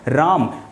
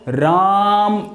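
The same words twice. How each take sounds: First: The vowel is short and said normally. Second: The vowel is drawn out as in a call. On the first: The word is simply said. "आप इसको normal तरीके से बोलेंगे" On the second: Someone is being called out to. "अगर पुकारेंगे तो राम इस तरीके से बोलेंगे"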